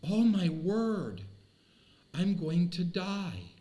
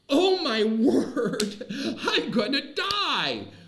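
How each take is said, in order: First: It is said in a fearful, dismayed tone. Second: It is said in a joyful, excited tone. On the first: Death is something to dread. The speaker calls it wrong. "we have this inherent fear inside of us" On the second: Death leads to a great celebration. The speaker calls it right. "I think the tone of that should be different"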